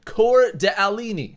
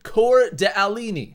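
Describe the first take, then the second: First: The name is read out as it is spelled. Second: The same.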